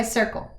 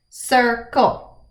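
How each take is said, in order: First: Said in the usual way. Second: "Circle" split into two beats, cir-cle; syllable by syllable. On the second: Shown as a demonstration. Teacher counting syllables for pupils, "Circle" broken in two. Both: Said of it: "Let's count the syllables".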